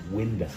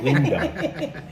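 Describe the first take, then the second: First: It is said in a Manhattan New York accent. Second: It is said in a thick Bronx accent. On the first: The speaker says it this way herself. "But I say window" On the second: Someone else says it this way. "Danette has a thick Bronx accent"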